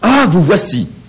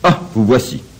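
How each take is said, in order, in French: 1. Ça sonne chaleureux et joyeux. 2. Ça sonne en colère et agacé. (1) "je manifeste ma joie de le voir" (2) "je lui montre combien je suis fâché de son retour"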